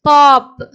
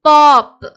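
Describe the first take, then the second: No difference in how they are said.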